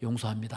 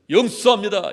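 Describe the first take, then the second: First: It is said in a plain, humble voice. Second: It is said in a grand, showy voice. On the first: The speaker forgives modestly and sincerely. The speaker calls it right. "겸손한 마음으로" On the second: The speaker is acting lofty and superior. The speaker calls it wrong. "목소리도 갖추어서 딱 그냥 폼을 내서"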